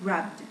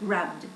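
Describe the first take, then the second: No difference in how they are said.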